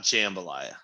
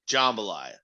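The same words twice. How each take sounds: First: The word is said with an 'eh' vowel. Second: The word is said without an 'eh' vowel. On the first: The speaker calls it wrong. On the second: The speaker calls it right. "you don't hear the eh a lot in the South"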